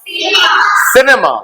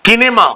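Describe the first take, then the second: First: The word begins with an s sound. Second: The word begins with a k sound. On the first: The speaker calls it right. "इसीलिए आप इसे सिनेमा पढ़ते हैं" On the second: The speaker calls it wrong. "किनेमा नहीं पढ़ते"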